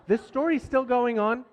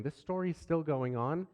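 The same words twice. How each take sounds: First: This story's still going on said higher, stressing story's with a tired rise; weary resignation. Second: Softer, rising disbelieving question; weary viewer question. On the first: Dad reliving the endless night, higher weary resignation. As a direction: sigh it out as a worn-out dad. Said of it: "that's how I was feeling". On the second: Voicing an impatient viewer, soft rising disbelief. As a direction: ask it like a bored listener. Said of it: "if you're wondering". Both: Shown as a demonstration.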